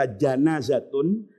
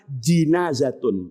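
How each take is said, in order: First: The first syllable has the vowel 'a'. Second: The first syllable has the vowel 'i'. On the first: It refers to the dead body itself. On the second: It refers to the body lying on the bier.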